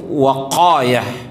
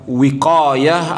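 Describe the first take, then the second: First: The first vowel is an 'a' sound. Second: The first vowel is an 'i' sound. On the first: The speaker calls it right. "yang paling fasih di dalam tata cara membaca ini adalah waqayah" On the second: The speaker calls it wrong. "Ada dua cara membacanya"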